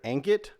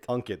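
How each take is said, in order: First: The name is said with an American pronunciation. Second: The name is said with its original pronunciation. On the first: The speaker calls it wrong. "a lot of Americans say Ankit" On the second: The speaker calls it right. "It's Ankit"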